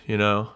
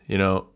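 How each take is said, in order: Both takes have the same delivery.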